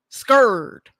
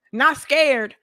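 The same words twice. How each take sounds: First: Scared with a mock fearful whine. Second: Said in the usual way. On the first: Shown as a demonstration. Contrasting not scared with scared again, mock whine. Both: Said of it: "Now she's scared".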